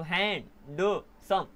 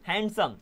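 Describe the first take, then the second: First: handsome slowly broken up as हैं, ड, सम; split into syllables. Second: Said in the usual way. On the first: Shown as a demonstration. Teacher showing it can divide, handsome in separate pieces. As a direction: pull handsome apart piece by piece with small gaps. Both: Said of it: "इसको भी divide कर सकते हो".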